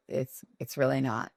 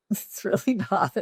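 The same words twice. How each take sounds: First: Said in the usual way. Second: Laughing denial, higher pitch. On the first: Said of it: "repeats denial". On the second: Real, not acted. Founder laughing off the glamour myth, higher. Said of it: "repeats denial laughing".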